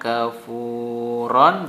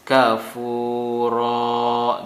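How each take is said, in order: First: The word ends with a short vowel and n. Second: The word ends with a lengthened a vowel. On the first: The reader continues without stopping. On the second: The reader stops at the end of the verse.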